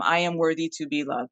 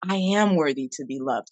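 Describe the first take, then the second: First: It is read out flatly, without feeling. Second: It is said warmly, with real feeling.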